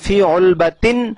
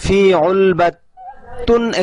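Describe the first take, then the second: First: The last word ends in an -in sound. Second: The last word ends in an -un sound. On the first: The speaker calls it right. "সেই হিসেবে ফি উলবাতিন সগীরাতিন হবে" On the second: The speaker calls it wrong. "এখানে যে দেয়া হয়েছে এটা ভুল"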